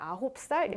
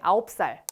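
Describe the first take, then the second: First: The h sound is clearly pronounced. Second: The h sound is dropped or weakened. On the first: The speaker calls it right. "신경 써서 발음해주면 굉장히 고급스럽게 들립니다" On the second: The speaker calls it wrong. "이렇게 많이 얘기하죠"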